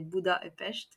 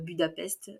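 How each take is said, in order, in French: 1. Le nom est prononcé à la hongroise. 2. Le nom est prononcé à la française. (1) "Je le prononce à la hongroise" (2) "je dis pas Budapest"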